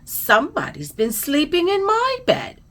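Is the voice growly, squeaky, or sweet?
squeaky. It is said in a high, squeaky voice. "squeaked Baby Bear"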